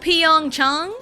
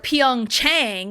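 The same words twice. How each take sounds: First: The second syllable has an open 'ah' vowel. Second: The second syllable has a long 'ay' vowel. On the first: The speaker calls it right. "it's still fairly correct" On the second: The speaker calls it wrong. "the long A sound is A"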